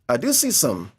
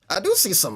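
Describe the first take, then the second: First: It is read in the speaker's own voice. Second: It is read in a put-on character voice. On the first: The speaker calls it wrong. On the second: The speaker calls it right.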